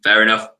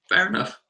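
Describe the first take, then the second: First: It is said in a deep, low voice. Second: It is said in a high, cracking voice.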